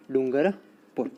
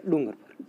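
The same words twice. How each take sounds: First: Dungarpur slowly, split into Dungar and पुर; slow, measured dictation of Dungarpur; dictation pace. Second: Said in the usual way. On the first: Real, not acted. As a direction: draw out Dungarpur part by part for note-takers. Teacher repeats it slowly for dictation.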